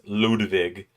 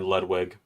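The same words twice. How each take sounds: First: The name is pronounced the German way. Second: The name is pronounced the English way. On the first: It sounds more pompous. "that is the German way of pronouncing it" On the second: It sounds less pompous. "much more pompous than Ludwig"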